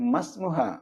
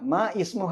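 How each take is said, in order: First: The 'i' is dropped and the words run together. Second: The 'i' of the second word is pronounced separately. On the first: The speaker calls it right. "ചേർത്ത് വായിക്കുമ്പോൾ ഇടയിൽ ഈ ഉച്ചരിക്കില്ല" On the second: The speaker calls it wrong. "മാ ഇസ്മുഹ എന്നല്ല"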